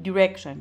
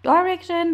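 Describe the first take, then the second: First: The word is said with an American accent. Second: The word is said with a British accent. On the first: "برای لهجه امریکن شما باید بگین" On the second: "برای لهجه بریتیش هستش"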